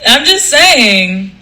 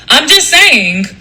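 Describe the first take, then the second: First: Slow, drawn-out cartoon show-off; Johnny Bravo voice. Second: A hint of a cartoon show-off, pitched up a little; Johnny Bravo voice. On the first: Comic repeats it for live viewers, slow cartoon swagger. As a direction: stretch it out in a lightly hammed-up voice. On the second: Comic talking to live viewers, lightly hammed-up voice. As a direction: lightly play up the catchphrase delivery. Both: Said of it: "Johnny Bravo voice".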